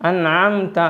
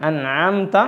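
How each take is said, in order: Both takes have the same delivery.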